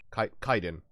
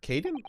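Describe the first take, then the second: First: Kaiden as KY-den, falling; settled pronunciation. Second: Kaiden as KAY-den, questioning; unsure pronunciation. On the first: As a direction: land on Kaiden with KY. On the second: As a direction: try Kaiden with KAY, rising. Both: Shown as a demonstration. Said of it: "I'm just gonna say Kaiden".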